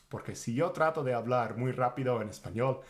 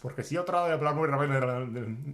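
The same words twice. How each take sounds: First: Said in the usual way. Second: Louder, pressed demo of rushing speech; emphatic. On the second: Shown as a demonstration. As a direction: push it out loud as if rushing. (con énfasis, más fuerte) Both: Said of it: "when you're trying to speak really fast".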